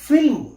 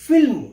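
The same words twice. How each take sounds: No difference in how they are said.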